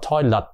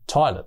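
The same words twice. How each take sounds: First: The second syllable is said strongly, not reduced. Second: The first syllable is stressed; the second is light. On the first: The speaker calls it wrong. "Chứ không đọc là toilet" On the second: The speaker calls it right. "nhấn mạnh ở phải phải trước âm đầu tiên... cái chữ let đọc rất là lướt nhẹ thôi nha"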